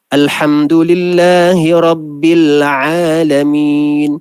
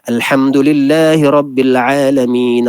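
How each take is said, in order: First: It is recited at a moderately quick pace. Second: It is recited quickly.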